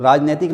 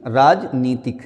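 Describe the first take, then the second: First: राजनैतिक with "nai" in the middle; wrong form. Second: राजनीतिक with long "nee"; correct form. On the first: Teacher rejects common mistake, राजनैतिक with "nai". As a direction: say राजनैतिक as raaj-nai-tik. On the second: Teacher corrects the class, राजनीतिक with long "nee". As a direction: say राजनीतिक as raaj-nee-tik. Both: Shown as a demonstration. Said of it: "नहीं".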